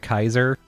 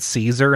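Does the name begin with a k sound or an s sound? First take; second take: k sound; s sound. First: The name begins with a k sound. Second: The name begins with an s sound. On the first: "the other half pronounced it Kaiser" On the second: "half the people pronounced it Caesar"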